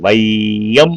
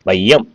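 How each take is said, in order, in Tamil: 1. 'ai' உயிர் நீளமாகவும் முழுமையாகவும் ஒலிக்கப்படுகிறது. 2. 'ai' உயிர் குறுக்கி, சிறிதாக ஒலிக்கப்படுகிறது. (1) "வையம் அப்படின்னு சொல்றதில்ல" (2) "குறைந்து ஒலிக்குது"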